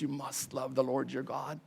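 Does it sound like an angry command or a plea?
plea. It sounds like a gentle, earnest plea.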